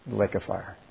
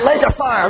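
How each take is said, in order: First: It is said in a low, reluctant, subdued way. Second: It is said in a cheerful, excited way. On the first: The person grudgingly admits a frightening fate. "And they'll say it like that" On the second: The person happily looks forward to the fate. "They won't say, "Whoopee"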